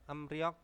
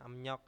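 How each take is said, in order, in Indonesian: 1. Suku kata kedua diawali dengan bunyi R. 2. Suku kata kedua diawali dengan bunyi N. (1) "Emryok tulisannya" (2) "bacanya emnyok"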